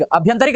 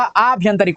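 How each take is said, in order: First: अभ्यंतरिक opened on brief a; short first vowel. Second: आभ्यंतरिक opened on drawn aa; long first vowel. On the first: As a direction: keep अभ्यंतरिक short at the start. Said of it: "नहीं होता". (अभ्यंतरिक, छोटा अ) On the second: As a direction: stretch the start of आभ्यंतरिक. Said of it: "होता है". (आभ्यंतरिक, लंबा आ) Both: Shown as a demonstration.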